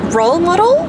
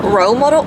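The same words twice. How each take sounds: First: Higher rising Australian "Role model?"; playful Australian "Role model?" with a rising end; Australian accent try. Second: Said in the usual way. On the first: Shown as a demonstration. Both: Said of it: "in an Australian accent".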